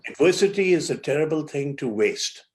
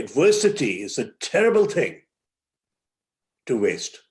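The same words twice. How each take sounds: First: It is said without a pause after thing. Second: It is said with a pause after thing.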